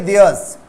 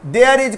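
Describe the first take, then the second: First: "theirs" as one joined word; contracted there's. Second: Said in the usual way. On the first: Shown as a demonstration. Teacher shows students the spoken form, contracted "theirs". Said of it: "There is को बोलेंगे". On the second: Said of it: "को बोलेंगे theirs".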